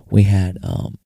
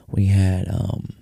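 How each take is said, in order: Both takes have the same delivery.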